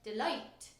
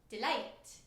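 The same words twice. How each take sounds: First: It is said in an English English accent. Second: It is said in a brighter Scots English accent.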